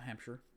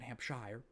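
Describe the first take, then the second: First: It sounds like the US state's name. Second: It sounds different from the US state's name. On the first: The speaker calls it wrong. "Not Hampshire, like the state" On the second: The speaker calls it right. "but Hampshire"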